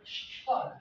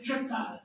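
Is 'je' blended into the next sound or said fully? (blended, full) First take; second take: blended; full. First: The je is assimilated into the following p. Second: The je is said fully, without assimilation. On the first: The speaker calls it right. "On doit faire une assimilation" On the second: The speaker calls it wrong. "on ne va pas dire"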